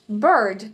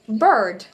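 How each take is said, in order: First: It is said in an American accent. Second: The same.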